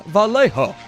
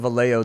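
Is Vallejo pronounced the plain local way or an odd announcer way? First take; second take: odd announcer; plain local. First: The name is said in an odd, exaggerated way. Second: The name is said the plain, familiar way. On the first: This is how outsiders on the radio say it. The speaker calls it wrong. "everybody on the radio is like, ... pronounce it hella weird" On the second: This is how people who live there say it. The speaker calls it right. "Everybody calls it Vallejo that lives here"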